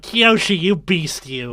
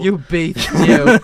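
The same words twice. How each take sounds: First: Flamboyant voice. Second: High, breathy camp drawl; flamboyant voice. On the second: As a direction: ham up the camp flirt. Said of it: "he's like". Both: Retold or imitated.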